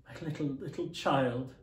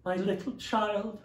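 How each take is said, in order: First: Grieving father's cry; crying out in grief. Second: Higher, slow, grief-stricken repeat; broken-hearted. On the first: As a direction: let the grief break through on child. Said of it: "cried Bob". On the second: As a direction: say it again as the grief takes hold. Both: Acted.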